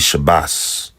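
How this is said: The word ends with an s sound. "their dialect would say like bas"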